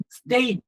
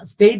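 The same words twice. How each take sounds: First: "സ്റ്റേറ്റ്" as one syllable, ending on a clean t; one-syllable pronunciation. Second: "സ്റ്റേറ്റ്" split in two, with an added final u: stay-tu; two-syllable mispronunciation. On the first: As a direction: say "സ്റ്റേറ്റ്" as state, with no vowel after the t. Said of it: "എന്ന് പറഞ്ഞാൽ single". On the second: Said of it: "എന്ന് പറഞ്ഞാൽ രണ്ടായി". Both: Shown as a demonstration.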